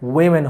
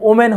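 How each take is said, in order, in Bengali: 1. প্রথম সিলেবলটি 'wi' এর মতো করে বলা হয়েছে। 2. প্রথম সিলেবলটি 'oh' এর মতো করে বলা হয়েছে। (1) "ওয়েমেন হবে" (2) "এটার উচ্চারণ কিন্তু ওমেন হবে না"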